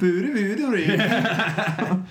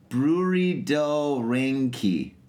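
First: It is said imitating the Swedish Chef. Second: It is said in his normal voice.

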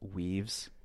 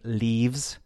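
First: The word begins with a W sound. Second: The word begins with a clear L sound. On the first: The speaker calls it wrong. "I W my L's sometimes" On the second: The speaker calls it right. "Instead of saying leaves"

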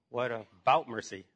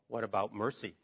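First: The voice sounds nervous and questioning. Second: The voice sounds earnest, stressing 'mercy'. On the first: The speaker is anxiously asking for mercy. "Or you can be inquisitive, like you're going to be, you know, put in a firing squad" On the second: The speaker is turning to mercy in trouble. "Or the way I want it to be read is, ... Put the emphasis on the last word"

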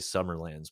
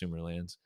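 First: The first part sounds like the word summer. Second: The first part sounds like the word Sumeria. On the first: The speaker calls it wrong. "I used to always say Summerlands" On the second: The speaker calls it right. "I believe it's pronounced like Sumeria"

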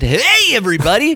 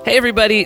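First: It is said with high energy. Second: It is said with low energy.

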